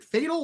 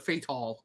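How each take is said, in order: First: "Fatal" as FAY-tl, weak ending; first syllable stressed. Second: "Fatal" as fay-TALL; full second syllable. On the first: Vlogger asking how a name is said, Fatal as FAY-tl. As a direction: say "Fatal" like the everyday word. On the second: Vlogger offering the alternative name reading, Fatal as fay-TALL. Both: Shown as a demonstration. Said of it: "How do you say".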